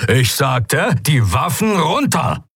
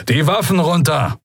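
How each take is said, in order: First: Insistent, higher-pitched repeated order; energetic command. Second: Higher-pitched military order; commanding. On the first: Commander to defiant pirates, energetic insistent command. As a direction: drive the order home, drawing it out. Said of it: "klang ziemlich energisch". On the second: Young commander to trapped pirates, first firm command. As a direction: order them firmly to disarm. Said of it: "befahl ein Weißmantel". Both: A narrator's reading.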